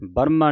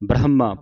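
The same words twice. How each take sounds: First: The h sound is dropped or weakened. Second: The h sound is fully pronounced. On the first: The speaker calls it wrong. "ਬ੍ਰਹਮਾ ਨਹੀਂ ਕਹਿ ਦੇਣਾ" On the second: The speaker calls it right. "ਬ੍ਰਹਮਾ ਪੂਰਾ ਹਾਹਾ ਬੋਲ ਕੇ ਜਾਣਾ"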